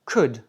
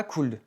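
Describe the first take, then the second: First: COULD with no L, just "kood"; silent L. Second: COULD with the L pronounced, "koold"; mistaken sounded L. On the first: English teacher models the right could, correct pronunciation demo. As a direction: say COULD short, dropping the L. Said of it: "on ne prononce pas le L". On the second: Teacher shows learners what not to say, wrong-pronunciation demo. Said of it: "et non pas". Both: Shown as a demonstration.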